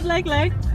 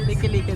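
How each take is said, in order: First: It is said like the English word 'like' twice. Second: It is said with 'ee' vowels: lee-kee-lee-kee. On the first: The speaker calls it wrong. "Sorry naman masyado akong slang sa like-like" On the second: The speaker calls it right. "liki-liki daw"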